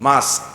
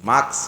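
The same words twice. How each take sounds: Both takes have the same delivery.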